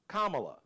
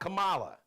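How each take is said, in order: First: The name begins like the word comma. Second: The name does not begin like comma. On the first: The speaker calls it right. "So just think of the word comma, la" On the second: The speaker calls it wrong.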